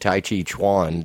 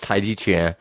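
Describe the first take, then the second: First: The second syllable starts with a 'ch' sound. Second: The second syllable starts with a 'j' sound. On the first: The speaker calls it wrong. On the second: The speaker calls it right.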